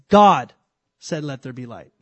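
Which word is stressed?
God. The word "God" carries the main stress. The power lies in who is speaking. The speaker calls it right. "there's a big difference in him saying something and me saying something"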